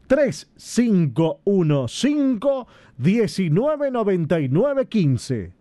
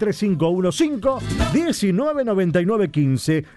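First: It is said slowly and carefully. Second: It is said at normal, faster pace.

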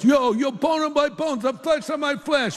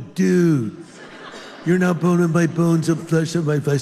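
First: It is said in an East Coast accent. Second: It is said in a California accent.

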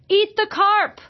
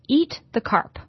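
First: It is said loudly, like an exclamation. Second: It is said calmly, as a plain title.

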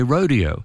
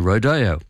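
First: It is said the Midwest American way. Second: It is said the Spanish-settled American way.

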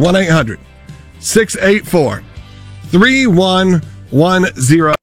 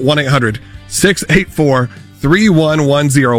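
First: The number is said at a slow pace. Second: The number is said at a quick pace.

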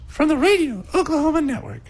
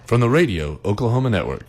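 First: It is said at a higher pitch. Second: It is said at a normal pitch.

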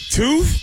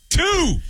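First: The voice rises at the end, like a question. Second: The voice falls at the end, sounding confident.

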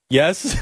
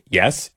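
First: The yes is said in a submissive tone. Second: The yes is said plainly and flatly.

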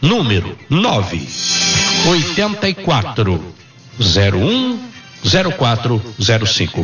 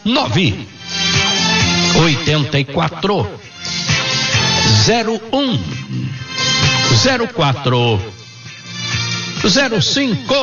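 First: The number is read at normal speed. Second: The number is read slowly.

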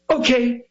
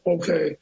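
First: It is said with energetic theatrical pop. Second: It is said flatly without pop.

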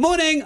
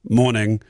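First: It sounds casual and friendly. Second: It sounds authoritative and professional.

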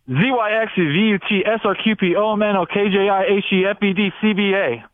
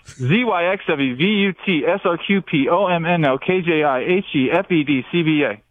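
First: The letters are recited quickly. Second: The letters are recited more slowly.

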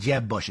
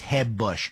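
First: The name starts with a hard English J. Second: The name starts with a soft Spanish-style H.

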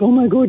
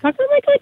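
First: It is said in a deep, big-dog voice. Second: It is said in a high, little-dog voice.

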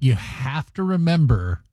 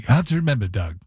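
First: It is said in the speaker's own accent. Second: It is said in Halford's British accent.

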